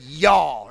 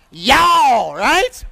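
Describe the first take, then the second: First: \"y'all\" low and falling, Kentucky drawl. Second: Loud Kentucky drawl on \"Y'all\", falling. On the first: Preacher translating Bible for congregation, Kentucky accent. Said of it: "our Kentucky standard version". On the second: Preacher to congregation on plural you, Kentucky accent. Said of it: "how do we say plural you in Kentucky". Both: Shown as a demonstration.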